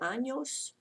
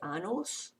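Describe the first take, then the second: First: The middle consonant is an ny sound. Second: The middle consonant is a plain n sound. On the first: It means years. The speaker calls it right. "pronounced like the N Y sound" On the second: It means anuses. The speaker calls it wrong. "that's muy mal"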